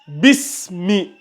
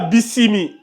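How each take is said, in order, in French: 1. Le s et le m sont liés sans voyelle. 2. Une voyelle supplémentaire est insérée entre le s et le m. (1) "Bismi. Pas bisimi" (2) "Pas bisimi"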